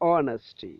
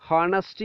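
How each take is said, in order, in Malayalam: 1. ഈ വാക്ക് നേരിട്ട് സ്വരാക്ഷരത്തിലാണ് തുടങ്ങുന്നത്. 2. ഈ വാക്ക് h ശബ്ദത്തിലാണ് തുടങ്ങുന്നത്.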